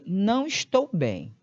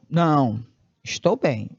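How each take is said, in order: First: It is said without a pause after "não". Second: There is a pause after "não".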